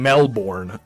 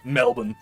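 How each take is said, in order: First: The second syllable is full, with an R sound. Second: The second syllable is reduced, with no R sound. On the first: The speaker calls it wrong. "I'm not saying Melbourne" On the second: The speaker calls it right. "I know you don't pronounce the R really"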